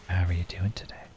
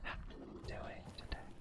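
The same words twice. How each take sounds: First: It is said in a normal speaking voice. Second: It is said in a soft, whispery voice.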